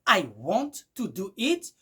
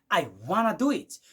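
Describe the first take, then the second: First: Want to is said as two full words. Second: Want to is blended into one word, wanna. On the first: "qui est" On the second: "vous allez écouter du genre"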